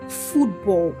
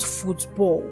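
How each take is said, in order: First: The stress is on the first syllable. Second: The stress is on the second syllable. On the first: The speaker calls it right. "the stress is often placed on the first syllable" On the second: The speaker calls it wrong. "and not football"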